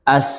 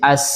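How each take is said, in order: First: The final consonant is a hissing s sound. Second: The same.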